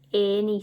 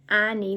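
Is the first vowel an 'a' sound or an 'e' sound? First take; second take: e sound; a sound. First: The first vowel sounds like the 'e' in bed. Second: The first vowel sounds like the 'a' in cat. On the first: The speaker calls it right. "we say any, so it sounds like an e in this word" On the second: The speaker calls it wrong. "we don't say any"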